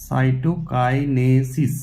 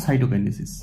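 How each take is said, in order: First: সাইটোকাইনেসিস drawn out very slowly, syllable by syllable, in a low pitch; careful pronunciation. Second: Said in the usual way. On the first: Shown as a demonstration. Teacher shows students how the term is pronounced, সাইটোকাইনেসিস slow and syllable by syllable. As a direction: say সাইটোকাইনেসিস slowly as সাই-টো-কাই-নে-সিস, each part separate. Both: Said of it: "উচ্চারণটা দেখো".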